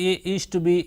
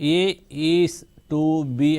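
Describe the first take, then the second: First: 'Is to' is squeezed into one syllable, like 'east'. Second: 'Is to' is said clearly as two separate syllables. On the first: The speaker calls it wrong. "చాలామంది ఏ ఈస్ట్ B ఈస్ట్ B అంటారు. ఇది ఏ ఈస్ట్ B కాదు" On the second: The speaker calls it right. "ఎలా చదవాలి అంటే ఏ ఈజ్ టు బి అని చదవాలి"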